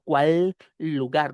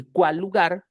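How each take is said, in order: First: CUÁL, LUGAR drawn out with two distinct L's; words separated. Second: CUÁL LUGAR as one word with a single shared L; linked consonants. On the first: Teacher demonstrating what not to do, words pulled apart. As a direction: hold the L of "cuál", then begin "lugar" afresh. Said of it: "no separo cuál lugar". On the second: Teacher explaining two words become one, consonants linked. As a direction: join "cuál" to "lugar" without a break. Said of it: "se convierte en una sola palabra". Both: Shown as a demonstration.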